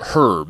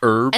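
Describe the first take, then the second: First: The word starts with an H sound. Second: The word starts without an H sound. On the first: This is how speakers in Great Britain say it. "Unless you're from Great Britain. They say herbs" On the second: This is how speakers in the United States say it. "we don't really pronounce the H in herbs"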